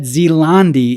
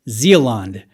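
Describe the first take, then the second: First: The name ends with an extra ee sound. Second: The name ends without an extra ee sound. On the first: The speaker calls it wrong. "It's commonly said Zealandi, and a Zealandi is incorrect" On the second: The speaker calls it right. "That's how you say it"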